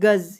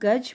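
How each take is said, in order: First: The word ends with a z sound. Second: The word ends with a plain j sound. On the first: It means a unit of length. "ग ज नुक्ता गज। मेरा उच्चारण सुनिए" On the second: It means elephant. "ग ज गज मतलब हाथी"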